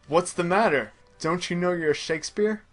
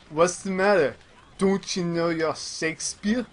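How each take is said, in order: First: It is said in the speaker's plain accent. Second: It is said in an imitated Japanese accent.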